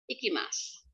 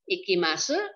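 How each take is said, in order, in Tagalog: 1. Tahimik ang huling patinig na u. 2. Malinaw na binibigkas ang huling patinig na u.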